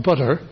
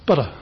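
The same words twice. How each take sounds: First: Butter said with a D in place of the T; a held, voiced D in the middle of butter; full D. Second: Butter with a very quick tap for the T; butter with a light, fast flap in the middle; flapped T. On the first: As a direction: say butter as "budder". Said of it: "It's not a D". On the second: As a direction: flick the tongue once on the ridge in butter. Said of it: "And that is a flap". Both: Shown as a demonstration.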